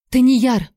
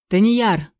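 First: Higher, alarmed call; sudden startled exclamation; cried-out name. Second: Understated bark from a khan; short commanding call, only lightly raised; barked name. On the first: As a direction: cry the name out in shock. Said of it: "вскрикнула я". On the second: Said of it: "рявкнул Каан". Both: A narrator's reading.

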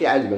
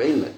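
First: علما read as ʕalma, open a after ʕ; علما with the wrong vowels, ʕalma; wrong form. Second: علما said as ʕilma, i after ʕ; right form. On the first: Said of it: "إذا أنا ما نقولش". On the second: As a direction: correct علما with a short i, ʕilma. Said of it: "نقول". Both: Shown as a demonstration.

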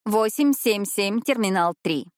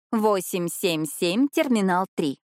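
First: Slow, spelled-out digits, stress on восемь; careful dictation. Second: Very slow repeat, rising on семь, falling on терминал; slower dictation. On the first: Jane passes the detective a coded message, slow dictation. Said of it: "Джим Миллер просил передать вам". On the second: Jane repeats the code to the detective, extra slow. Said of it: "repeated message". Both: Shown as a demonstration.

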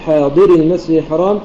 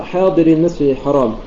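First: حاضري with its final syllable leaned on; plural stress. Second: Said in the usual way. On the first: Shown as a demonstration. Teacher contrasting plural with singular, stress on the ري of حاضري. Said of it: "حاضري جماعة". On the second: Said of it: "حاضر واحد".

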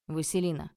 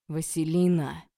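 First: Restrained call from another room; mild shout. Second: Loud, commanding roar of a name; angry bark. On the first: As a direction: call her name sharply, only slightly raised. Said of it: "закричал он из глубины комнаты". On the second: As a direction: bark her name to stop her. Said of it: "рявкнул Олег". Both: A narrator's reading.

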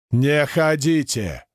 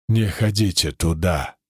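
First: Slow, drawn-out plea; more insistent warning. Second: Low-pitched, distinct warning; wounded man speaking clearly. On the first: Wounded man trying to sit up, insistent drawn-out warning. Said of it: "уже громче повторил парень". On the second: Wounded man warns his rescuers, unexpectedly clear. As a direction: lower the voice, warn them clearly. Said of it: "неожиданно внятно сказал раненый". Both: A narrator's reading.

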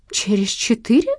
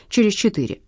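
First: Mildly appalled, higher rising question; a touch of horror, louder; horrified echo. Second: Said in the usual way. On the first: A narrator's reading. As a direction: repeat it as a dismayed question. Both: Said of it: "повторила она в ужасе".

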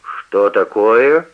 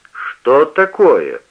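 First: Slow, mildly sharp rise; a lightly voiced start at his son, slow; startled. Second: Very slow and louder; indignant. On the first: (отец вскидывается на сына, медленно) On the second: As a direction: drag it out, building reproach. (возмущённо, очень медленно и громче) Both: A narrator's reading. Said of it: "вскинулся на него отец".

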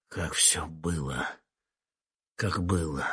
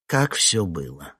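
First: Softer, slow, falling repeat; quiet echo. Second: Said in the usual way. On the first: Acted. The witness repeating the question to himself, softly. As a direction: murmur it back to yourself. Question echoed back inwardly.

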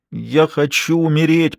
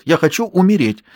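First: Slow, higher, drawn-out moan. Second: Angry shout.

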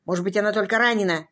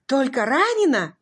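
First: Said in the usual way. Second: "Только ранена?" raised high and louder in disbelief; stunned disbelief. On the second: A narrator's reading. Husband echoing the doctor's words, stunned disbelief. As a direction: echo "Только ранена?" as if it can't be true.

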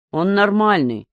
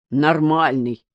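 First: Said in the usual way. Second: Lightly mimicking the word Нормальный back; a hint of a mocking echo of Нормальный; mocking imitation. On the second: A narrator's reading. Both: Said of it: "передразнил Пупа".

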